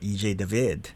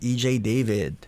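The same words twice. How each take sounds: First: The name is pronounced the Filipino way. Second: The name is pronounced the American English way.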